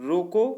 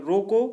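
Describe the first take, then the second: No difference in how they are said.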